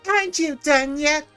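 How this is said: It is said with a sassy attitude.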